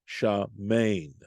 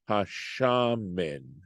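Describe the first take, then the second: First: The stress is on the last syllable. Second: The stress is on the first syllable. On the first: "it's the accent would fall on the last syllable" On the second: "the accent falls on the shin"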